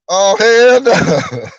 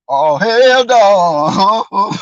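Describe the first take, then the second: First: Very slow, loud, stretched hell no; drawn-out hell no. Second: Even slower, loud, stretched hell no; drawn-out hell no. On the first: A viewer reacting to the crying, slow and stretched. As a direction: stretch it out in disbelief. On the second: A viewer reacting again, dragging it out even more. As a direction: drag every word in disbelief. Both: Retold or imitated.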